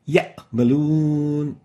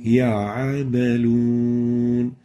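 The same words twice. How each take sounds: First: The ayn sound is clipped short. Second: The ayn sound is clearly pronounced. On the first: The speaker calls it wrong. "This is wrong" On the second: The speaker calls it right. "So the ayn should be clear"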